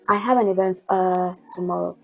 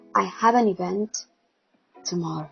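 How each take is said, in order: First: A filler sound 'uh' comes before 'tomorrow'. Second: A silent pause comes before 'tomorrow'. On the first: The speaker seems unprepared. The speaker calls it wrong. "Instead of going" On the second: The speaker seems composed while gathering thoughts. The speaker calls it right. "replace your filler words with a pause"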